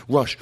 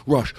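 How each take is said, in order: The two takes are said the same way.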